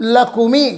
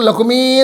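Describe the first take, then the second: First: The final vowel is kept short. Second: The final vowel is held long. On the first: The verse line breaks its meter. The speaker calls it wrong. "ಕೋಶದ ರೀತಿಯ ಹ್ರಸ್ವಾಂತವಾದ" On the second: The verse line keeps its required meter. The speaker calls it right. "ದೀರ್ಘ ಮಾಡ್ಕೋಬೇಕು"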